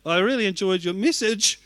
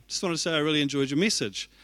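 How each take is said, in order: First: Higher and louder, voice cracking on message. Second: Said in the usual way. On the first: Shown as a demonstration. Pastor thanking the guest speaker, voice cracking and rising. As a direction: let the voice crack and climb as tears come. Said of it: "my voice kind of cracked and went up". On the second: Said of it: "And so it sounded like".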